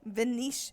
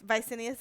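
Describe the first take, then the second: First: The name is said as Venetius. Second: The name is said as Vicinius. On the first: This is the name as originally intended. "it was supposed to be Venetius" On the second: This is a misreading that stuck. "Vicinius is epic"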